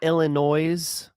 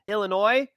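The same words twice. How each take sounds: First: The final S sound is pronounced. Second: The final S sound is silent. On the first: The speaker calls it wrong. "Not Illinois" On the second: The speaker calls it right. "Don't do that"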